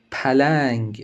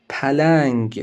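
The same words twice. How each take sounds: The two takes are said the same way.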